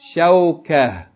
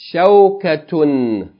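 First: The word ends in a with no t-sound. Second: The word ends with a t-sound and -un. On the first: The reader stops on this word. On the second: The reading continues on without stopping.

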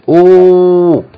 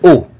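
First: The vowel is held long. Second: The vowel is kept short. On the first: The speaker calls it wrong. "You don't pronounce it ooh" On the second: The speaker calls it right. "So it's short"

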